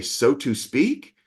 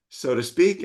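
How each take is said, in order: First: "to" in "so to speak" said as a full, careful "too"; overly formal pronunciation. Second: Said in the usual way. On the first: Retold or imitated. Client asking his coach about the phrase, overly formal "so to speak" with a full "to". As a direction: carefully spell out every word of "so to speak", rising into a question. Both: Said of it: "that would sound way too formal".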